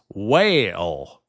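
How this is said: It is said in a Southern drawl, two syllables.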